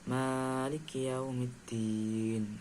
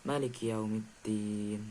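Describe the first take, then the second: First: The first vowel, ma, is drawn out long. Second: The first vowel, ma, is kept short. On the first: This is the reading of two of the seven imams. "pada huruf ma itu dibaca, dibaca panjang" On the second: This is the reading of the other five imams. "membaca dengan pendek"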